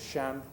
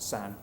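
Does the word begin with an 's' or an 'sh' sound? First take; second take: sh; s. First: The word begins with a retroflex sh sound. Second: The word begins with a plain s sound. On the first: "which is shan" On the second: "pronounced by a lot of Southern speakers as san"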